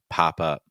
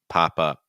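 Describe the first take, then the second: No difference in how they are said.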